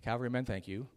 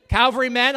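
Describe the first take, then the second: First: Quiet thanks. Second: Loud call. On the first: Quiet repeat. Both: Real, not acted.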